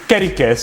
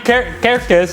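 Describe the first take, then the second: First: An extra vowel is heard between the r and the k. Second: No vowel is heard between the r and the k. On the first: The speaker calls it right. "it's Kerikes" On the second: The speaker calls it wrong. "it cannot be Ker- Kerkes"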